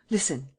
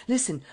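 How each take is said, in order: First: Said in the usual way. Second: Listen said higher, urgent and pressing; eager. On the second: A narrator's reading. Old lady urging Sernine to be careful with the girl, eager. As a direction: grab his attention with a quick eager listen. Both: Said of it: "said she eagerly".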